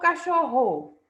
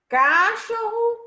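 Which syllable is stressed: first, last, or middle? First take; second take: first; last. First: The stress is on the first syllable. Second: The stress is on the last syllable. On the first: "a antepenúltima sílaba, ca?" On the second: "É a última sílaba, ro"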